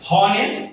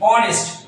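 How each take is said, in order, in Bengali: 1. শব্দটি একটি স্পষ্ট h ধ্বনি দিয়ে শুরু হয়। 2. শব্দটি একটি স্বরধ্বনি দিয়ে শুরু হয়, h-এর কোনো ধ্বনি নেই। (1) "শুরুতে এটার উচ্চারণ যদি হনেস্ট হতো" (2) "আমি কিন্তু এইচ এর উচ্চারণটা করছি না আমি বলছি honest"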